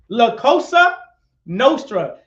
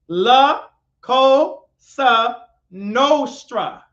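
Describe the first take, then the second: First: The phrase is said at a normal speed. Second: The phrase is said slowly and deliberately.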